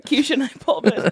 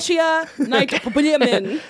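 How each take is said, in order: First: "Keisha" said KEE-sha, with a long ee; KEE-sha pronunciation. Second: "Keshia" slowly as KESH-ee-a; mock mispronunciation KESH-ee-a. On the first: Shown as a demonstration. Guest corrects host reading a name, "Keisha" as KEE-sha. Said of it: "I'm pretty, it's Keisha". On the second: Guest mocks host's wrong reading, "Keshia" as KESH-ee-a. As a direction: imitate a misreading, "Keshia" with short e and three syllables. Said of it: "Wrong. Keisha".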